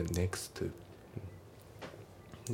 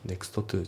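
First: "next to" as "neks-tu"; dropped T. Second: "next to" as "nekusuto tū"; T pronounced. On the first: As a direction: say "next to" as one linked word with a single T. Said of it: "nextのTが抜けますね". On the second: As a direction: sound out "to" at the end of "next" before "to". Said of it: "じゃなくて". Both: Shown as a demonstration.

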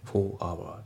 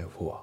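First: "for hour" as separate fo, awa; unlinked words. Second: "for" melted with "our" into fo-wa; linked words. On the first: Teacher showing learners what to avoid in for hour, unlinked. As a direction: keep "for" and "hour" apart, Japanese-style. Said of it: "じゃなくて". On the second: Teacher correcting the separated for our, linked. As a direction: say "for" and the next vowel as one joined word. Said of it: "for hourのところもリンキングで". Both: Shown as a demonstration.

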